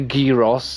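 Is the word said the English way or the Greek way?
Greek. It is said with a Greek-style pronunciation. It follows how native speakers say it. "that's how they say it in in Greece or in Greek"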